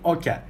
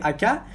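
First: The first vowel sounds like 'oh'. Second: The first vowel sounds like 'ah'. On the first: This is the capital-city regional form. "in Tashkent, in the capital of Uzbekistan, people usually say Okya. So the first letter is pronounced like O, not A" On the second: This is the western and eastern regional form. "in western or eastern regions, we say Akya"

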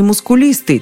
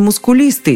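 First: The stress is on the third syllable. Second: The same.

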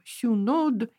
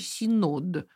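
First: The first vowel is rounded, like yu. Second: The first vowel is a plain unrounded i.

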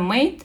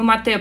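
First: The name sounds like the English word mate. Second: The name is read with Russian sounds, two syllables. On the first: This is the name used in international markets. "в наши международные подразделения это Made, потому что Made — это как по-английски дружок-приятель" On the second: This is the name used on the home market. "Мы Mate произносимся на российском рынке"

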